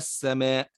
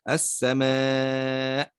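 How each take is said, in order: First: The long vowel is not held for extra beats. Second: The long vowel is held for extra beats. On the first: "وأتينا بها فقط بدون مد فقلنا السماء" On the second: "هذه فيها مد فرعي تمد بمقدار أربع أو خمس حركات"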